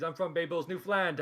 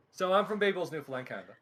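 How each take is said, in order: First: Bay Bulls and Newfoundland in a broad Newfoundland accent. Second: Said in the usual way. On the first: Shown as a demonstration. Introducing his hometown to the group, in Newfoundland accent. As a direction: say where you're from like a Newfoundlander. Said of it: "do it in the accent". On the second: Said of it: "I don't try and bring out that accent".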